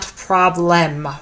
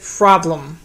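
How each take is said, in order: First: The second syllable has a full, clear vowel. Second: The second syllable has a reduced schwa vowel. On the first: The speaker calls it wrong. "Why is it not problem?" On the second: The speaker calls it right. "Why is it problem?"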